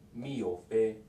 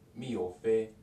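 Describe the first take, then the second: First: The k sound is dropped in fast speech. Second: The k sound is dropped in fast speech.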